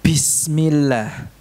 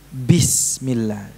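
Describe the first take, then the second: First: Slow Bismillah with air leaking on the b; breathy ba, wrong. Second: Slow Bismillah with the b breath held back; held ba, correct. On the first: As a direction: let breath flow on the b of Bismillah, the mistake. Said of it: "Ini ada hamesnya". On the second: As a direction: stop the air on the b of Bismillah. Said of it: "Yang benar tertahan". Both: Shown as a demonstration.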